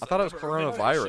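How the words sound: It is said in an exaggerated put-on voice. The speaker calls it wrong.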